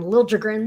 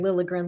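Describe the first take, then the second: First: The name is said with a J sound. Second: The name is said without a J sound. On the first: This is the surprising new way the name is said. "suddenly Randy Hahn, Liljegren" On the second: This is the familiar way the name was said. "I'm very used to hearing Lilligren"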